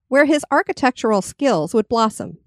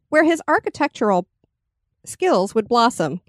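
First: The sentence flows without a noticeable pause. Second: A noticeable pause breaks up the sentence. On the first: The speaker calls it right. "There you go" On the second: The speaker calls it wrong. "Can you take out the pause?"

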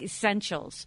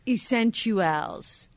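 First: The ending is blurred into a soft 'shuls' sound. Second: The ending is said clearly as 'tuals'. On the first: The speaker calls it wrong. "It's not like essentials" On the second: The speaker calls it right. "it's T-U-A-L-S at the end"

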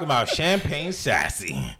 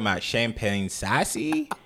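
First: It is said in the speaker's ordinary accent. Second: It is said in a put-on Canadian accent. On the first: The speaker calls it wrong. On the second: The speaker calls it right.

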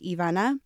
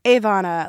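First: The name has a Spanish pronunciation. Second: The name has a non-Spanish pronunciation. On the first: This is how the family says the name. The speaker calls it right. "we pronounce it in Spanish and that's how it's pronounced" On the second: This is how outsiders say the name. The speaker calls it wrong. "that's been butchered"

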